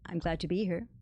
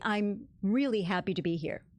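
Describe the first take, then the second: First: It is said plainly, without extra energy. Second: It is said with heightened, lively energy.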